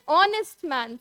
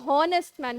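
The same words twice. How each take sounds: First: The h at the start is silent. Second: The h at the start is pronounced. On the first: The speaker calls it right. "we say honest man" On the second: The speaker calls it wrong. "We don't say honest man"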